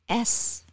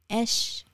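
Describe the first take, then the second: First: The letter is said with an s sound. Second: The letter is said with an sh sound. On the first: The speaker calls it right. "But it's S. S as in soy" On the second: The speaker calls it wrong. "an S H sound comes out"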